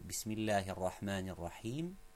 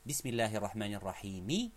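First: The phrase ends on a bare consonant. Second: The phrase ends with a short final vowel.

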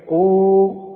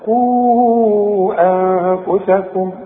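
First: The long vowel is held briefly. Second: The long vowel is drawn out longer. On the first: The reciter stops on the word. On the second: The reciter joins it to the next word.

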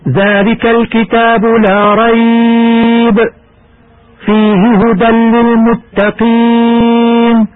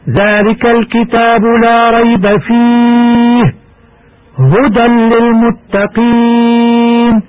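First: There is a pause after 'la rayb'. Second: There is a pause after 'fihi'.

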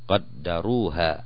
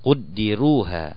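First: The vowels are 'a' after q and d. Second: The vowels are 'u' after q, 'i' after d. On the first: The subject did the measuring. "อ่านดาเนี่ยก็เป็นสระฟัตฮะห์" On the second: It was measured, with no stated subject. "สระอูนะครับสระดัมมะห์ที่อักษรกอฟแล้วก็อ่านสระกัสเราะห์ที่อักษรดาล"

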